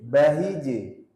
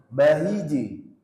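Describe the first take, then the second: No difference in how they are said.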